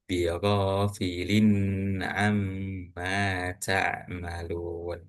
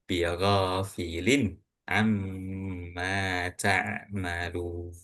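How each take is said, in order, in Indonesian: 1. Bunyi n sebelum amma ditahan lama. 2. Bunyi n sebelum amma jelas dan pendek. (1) "Jadi bukan" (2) "dibacanya jelas dan nggak perlu ditahan"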